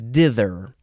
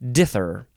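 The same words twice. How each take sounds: First: The th sound is said hard. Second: The th sound is said soft. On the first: The speaker calls it right. "It's dither" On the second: The speaker calls it wrong. "instead of dither. That's not it"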